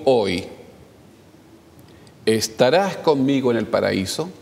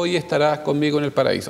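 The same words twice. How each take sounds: First: There is a pause right after hoy. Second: It runs on with no pause after hoy. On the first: Today belongs with the act of saying. "donde yo ponga una... haga la detención, cámbiala" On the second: Today belongs with being in paradise. "Así de corrido nomás"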